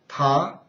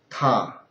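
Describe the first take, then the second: First: It is said with the second tone. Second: It is said with the third tone.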